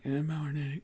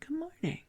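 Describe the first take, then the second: First: It is said flatly, without warmth. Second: It is said warmly, with real feeling.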